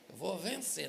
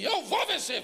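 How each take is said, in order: First: It is said more softly. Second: It is said very loudly.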